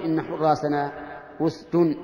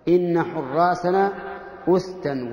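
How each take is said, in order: First: "أسد" ending in -un, usdun; nominative ending. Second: "أسدا" ending in -an, usdan, slowly; accusative ending. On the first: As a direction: sound the -un clearly on "أسد". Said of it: "ولم يقل". (نطق "أسد" بتنوين الضم) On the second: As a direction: stretch it out, sounding -an on "أسدا". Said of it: "نصب الجزئين". (نطق "أسدا" بالنصب ببطء) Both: Shown as a demonstration.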